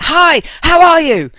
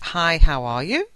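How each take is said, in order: First: It is said loudly, like shouting. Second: It is said at a normal volume.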